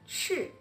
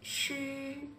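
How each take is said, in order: First: The pitch falls sharply from high. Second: The pitch stays high and level. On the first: "Le quatrième" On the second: "Le premier"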